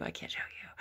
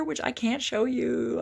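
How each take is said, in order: First: Secretive whisper. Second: Higher, louder and slow, playful; loud teasing. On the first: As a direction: hush it like a secret. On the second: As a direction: tease it out big and slow. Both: Real, not acted. Teasing a hidden birthday gift.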